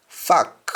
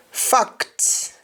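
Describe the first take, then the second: First: Fact ending on K, as "fack"; Jamaican pronunciation. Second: Said in the usual way. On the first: Shown as a demonstration. Teacher showing Jamaican speech, fact said as "fack". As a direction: drop the T of fact. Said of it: "change that C T to either C K". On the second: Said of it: "English words that end with C T".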